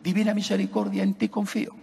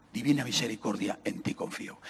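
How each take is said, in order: First: Said in the usual way. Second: Soft, low, fading into a whisper; hushed devout words. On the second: Acted. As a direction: breathe the promise almost silently. Priest voices Christ's words.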